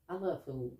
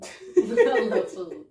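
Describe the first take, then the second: First: Said in the usual way. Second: Drawn-out, louder words through a laugh. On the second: Real, not acted. Confessing a love of food to her friend, laughing. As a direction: crack up while saying it.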